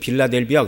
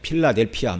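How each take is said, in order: First: It starts with a soft B sound. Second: It starts with a strong P sound. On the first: This is the usual form in the Korean Bible. "우리말에서는 빌라델비아 그러지만" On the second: This is closer to the original pronunciation. "발음을 하면 이제 필라델피아 뭐 이렇게 얘기를 해야 됩니다"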